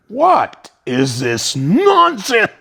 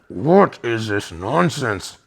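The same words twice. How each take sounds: First: Slow, loud, stern "What is this nonsense?"; angry guru rebuke. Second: Slower, weighty repeat of the outburst; a touch of the guru's fury; retold stern rebuke. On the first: Retold or imitated. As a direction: let it hit like a hurricane. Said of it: "and he goes".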